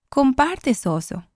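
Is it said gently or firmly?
gently. It is said softly and sweetly.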